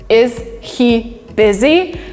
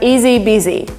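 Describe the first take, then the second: First: The h sound in he is clearly pronounced. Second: The h is dropped and words run together. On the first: "which means is he busy?" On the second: "we actually emitted sound H, and we have easy busy"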